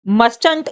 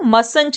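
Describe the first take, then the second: First: The t after the s is pronounced. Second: The t after the s is silent. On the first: The speaker calls it wrong. "आप इसको मस्टंट नहीं read करेंगे" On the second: The speaker calls it right. "जो टी है contraction में वो silent हो जाता है"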